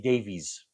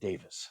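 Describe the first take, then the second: First: The name ends with a long 'veez' sound. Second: The name ends with a short 'vis' sound. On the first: This is how Americans would read the name. "at least us Americans would ... say Davies" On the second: This is how the family pronounces the name. "they pronounce it Davis"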